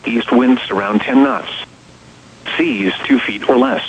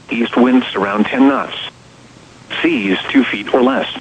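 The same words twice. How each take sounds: The two takes are said the same way.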